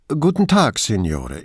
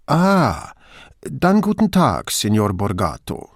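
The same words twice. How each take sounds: First: The engineer Pivato greets stiffly; official caller. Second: Friendly Venetian. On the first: Brunetti posing as an official on the phone, formal greeting. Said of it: "Hier spricht Ingegnere Francesco Pivato". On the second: Brunetti greets Borgato on the phone, friendly Venetian dialect. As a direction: switch warmly into Veneziano. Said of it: "schaltete Brunetti freundlich auf Veneziano um". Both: Acted.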